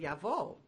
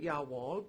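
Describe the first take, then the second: First: The middle consonant is a V sound. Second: The middle consonant is a W sound. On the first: "you would pronounce the W like a V" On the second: "I was calling it Yarwall"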